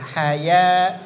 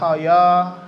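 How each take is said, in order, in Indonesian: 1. Bunyi ya itu tipis dan terbuka. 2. Bunyi ya itu tebal dan membulat. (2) "jangan hoyo"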